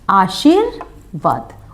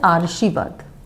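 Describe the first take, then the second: First: The r sound comes after the sh sound. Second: The r sound comes before the sh sound. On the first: The speaker calls it right. "और हमें लिखना क्या है" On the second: The speaker calls it wrong. "शा पर जब हम लगाते हैं तो शब्द क्या हो जाता है"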